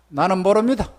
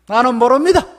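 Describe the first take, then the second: First: Said in the usual way. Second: 모릅니다 pushed loud, rising in protest; louder denial. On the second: Acted. Peter denying Jesus, a loud insistent 모릅니다.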